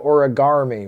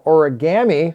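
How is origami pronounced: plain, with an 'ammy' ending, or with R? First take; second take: with R; ammy ending. First: An extra R sound is added in the middle. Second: The ending is said like 'ammy'. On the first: "with an R" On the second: "with like M M Y, A M M Y"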